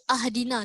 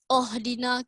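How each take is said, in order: First: The word begins with an a vowel. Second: The word begins with an o vowel. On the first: "ke ahdina, tidak" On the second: "Kita tak baca ohdina"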